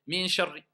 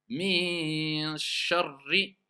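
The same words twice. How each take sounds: First: The nasal sound is passed over quickly. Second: The nasal sound is held for longer. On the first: The speaker calls it wrong. "c'est pas de dire min sharri" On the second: The speaker calls it right. "Il faut rester plus longtemps"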